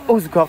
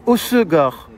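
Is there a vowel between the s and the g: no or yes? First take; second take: no; yes. First: No vowel is sounded between the s and g. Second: A vowel is sounded between the s and g. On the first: The speaker calls it wrong. "C'est pas Osgore" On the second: The speaker calls it right. "Voilà, c'est Osegor"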